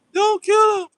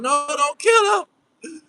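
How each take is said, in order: First: Much higher and louder, a shouted cry; mock shrieking plea. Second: Slow, crying plea, pitched higher; mock tearful plea. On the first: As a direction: scream at the police to stop. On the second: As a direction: beg the police to spare him, half-wailing. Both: Mocking a captive pleading for captor.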